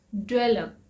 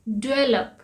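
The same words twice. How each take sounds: The two takes are said the same way.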